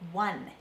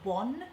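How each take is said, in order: First: The vowel is a short a sound. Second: The vowel is an o sound. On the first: "It's a short a sound, not an o sound" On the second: "Certain dialects of the U K will say one with an o"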